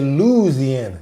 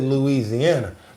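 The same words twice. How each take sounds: First: The first syllable is a long drawn-out 'loo'. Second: The first syllable is short, not drawn out. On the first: This is how locals say it. The speaker calls it right. "They say Louisiana with the L O O. They say it double up" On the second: This is how an outsider says it. The speaker calls it wrong. "I said Louisiana"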